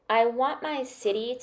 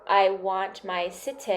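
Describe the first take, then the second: First: The T in city is a quick D-like flap. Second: The T in city is a crisp, released T. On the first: The speaker calls it right. "that T become a flap T" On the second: The speaker calls it wrong.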